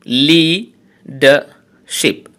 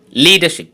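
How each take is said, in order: First: leadership slowly split into three syllables with pauses. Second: Said in the usual way. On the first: Shown as a demonstration. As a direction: say leadership in three slow, separate beats. (Leadership তিন সিলেবলে থেমে থেমে) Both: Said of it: "trisyllabic words".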